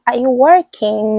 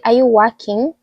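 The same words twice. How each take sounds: First: "working" said slowly with a sounded r; careful "working", distinct from "walking"; adapted pronunciation. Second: "working" without r, sounding like "walking"; Kenyan pronunciation. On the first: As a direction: say "working" carefully, r clearly there. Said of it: "Like, now I say". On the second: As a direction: say "working" as "wokking". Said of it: "it's like walking". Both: Shown as a demonstration.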